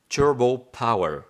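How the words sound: It is said with a put-on English accent.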